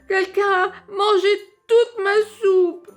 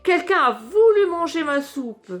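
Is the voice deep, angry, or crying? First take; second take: crying; angry. First: It is said in a small crying voice. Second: It is said in an angry voice.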